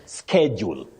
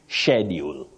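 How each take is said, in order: First: It is said in a non-British way. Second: It is said the British standard way. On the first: "you say schedule" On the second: "British standard English, you say schedule"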